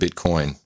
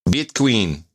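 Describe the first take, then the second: First: The word is said with the standard pronunciation. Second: The word is said with the Iranian mispronunciation. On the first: "instead of Bitcoin" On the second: "They call it Bitqueen because that's a mispronunciation"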